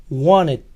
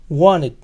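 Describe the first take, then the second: Both takes have the same delivery.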